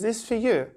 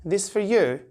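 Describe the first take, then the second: First: The words run together, with 'for' reduced. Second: The same.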